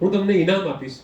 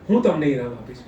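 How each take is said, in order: First: The stress falls on the third word. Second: The stress falls on the first word. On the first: It answers what will be given. "તમે મને શું આપશો" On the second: It answers who will give the prize. "મને કોણ ઇનામ આપશે"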